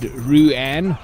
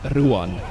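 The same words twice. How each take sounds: First: The name has a simplified English pronunciation. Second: The name has its South African pronunciation. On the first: This makes it easier for English speakers. "I typically coach people to say it Ruan" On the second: This is the real form of the name. "But it's Ruan"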